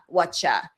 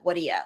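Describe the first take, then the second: First: The words blend into a two-syllable 'whatcha'. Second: The words keep three syllables as 'what do ya'. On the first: This is common in other parts of the country. "some people create the connected speech form as from what do you want to eat as whatcha" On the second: This is typical of New York speech. "because I'm from New York, we really m- more so lean towards what do ya"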